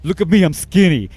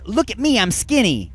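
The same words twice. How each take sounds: First: It is said in a put-on imitation voice. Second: It is said in the speaker's ordinary voice. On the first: "trying to impersonate the artist" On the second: "The line is"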